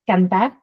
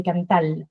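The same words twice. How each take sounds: First: Said in the usual way. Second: "cantal", ending on an L where the R would be; "cantar" turned into "cantal"; final L for R. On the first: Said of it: "they don't have the R at the end". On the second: Shown as a demonstration. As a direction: close "cantal" on a clear L. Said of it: "just like Puerto Ricans do".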